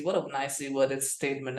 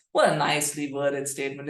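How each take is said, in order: First: Quieter dry sarcasm; under-the-breath sarcastic compliment; sarcastic, softer. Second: Dry mock praise, tongue in cheek; scornful fake compliment; sarcastic. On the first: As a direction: let the mock praise drop off, softer. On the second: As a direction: praise it while meaning the opposite. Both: Real, not acted. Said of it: "with all the sarcasm in the world".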